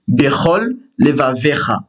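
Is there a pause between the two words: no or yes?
yes. A short pause separates the two words. Both lameds are kept distinct. The speaker calls it right. "il est obligé de marquer une pause entre ces deux mots"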